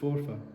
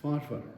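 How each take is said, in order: First: The first syllable sounds like 'for'. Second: The first syllable sounds like 'far'. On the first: This is how outside experts say it. The speaker calls it wrong. "they pronounce it forfar" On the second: This is how local people say it. The speaker calls it right. "Forfarians don't pronounce it forfar, it's farfar"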